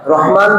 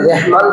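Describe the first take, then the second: First: The first vowel sounds like 'a' in father. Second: The first vowel sounds like 'e' in bed. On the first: The speaker calls it right. "রহমান রে" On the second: The speaker calls it wrong. "রেহমান বললে বিকৃত হয়"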